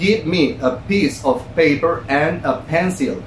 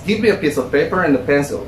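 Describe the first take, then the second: First: Each word is said separately, without linking. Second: The words are run smoothly together, linked. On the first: The speaker calls it wrong. "esto no suena para nada conversacional" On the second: The speaker calls it right. "Estoy pegando cosas. Pero esto ya es conversación"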